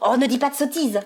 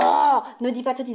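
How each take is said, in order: First: The energy holds until the phrase ends. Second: The energy fades before the phrase ends. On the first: The speaker calls it right. "on fait plutôt" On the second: The speaker calls it wrong. "on fait jamais"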